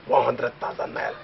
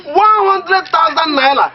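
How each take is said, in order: First: Quiet musing. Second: Amazed exclaim. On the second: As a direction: stretch out the sum, marvelling. Amazed at the money. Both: Real, not acted.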